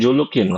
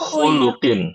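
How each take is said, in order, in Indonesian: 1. Kata ini diawali dengan bunyi j. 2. Kata ini diawali dengan bunyi kh. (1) "Bukan julukin"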